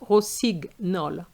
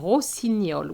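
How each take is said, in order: First: The middle has a plain hard 'g' sound. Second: The middle has a 'nye' sound. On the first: The speaker calls it wrong. "not rossignol" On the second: The speaker calls it right. "we have the sound gne"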